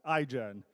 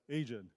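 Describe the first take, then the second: First: The name begins with an 'eye' sound. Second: The name begins with an 'ay' sound. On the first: The speaker calls it right. "our company's name is uh, pronounced iGen" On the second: The speaker calls it wrong.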